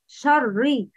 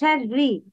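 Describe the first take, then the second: First: The sh and r sounds are heavy. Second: The sh and r sounds are light. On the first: The speaker calls it wrong. "but the wrong is شري" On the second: The speaker calls it right. "Pronounce sheen and ra with a light tone. It's شري"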